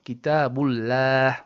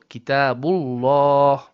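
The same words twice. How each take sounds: First: The l sound is light and thin. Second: The l sound is heavy and thick. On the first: The speaker calls it wrong. "and not" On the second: The speaker calls it right.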